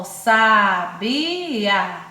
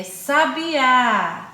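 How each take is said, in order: First: "sabiá" loud, stretched into slow separate syllables. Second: Said in the usual way. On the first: Shown as a demonstration. Teacher showing I and A separated, "sabiá" syllable by syllable. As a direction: pull "sabiá" apart beat by beat. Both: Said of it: "a vogal A se separaram".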